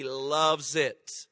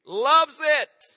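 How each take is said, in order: First: Said in the usual way. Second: Loud, high "Loves it"; preacher's ringing "Loves it"; emphatic repeat. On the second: Real, not acted. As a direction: punch "Loves it" out, raised in pitch and volume.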